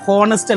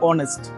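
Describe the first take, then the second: First: An h sound is heard at the start. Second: No h sound is heard at the start. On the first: The speaker calls it wrong. "ഹോണസ്റ്റ് അല്ല" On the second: The speaker calls it right. "H silent ആണ്"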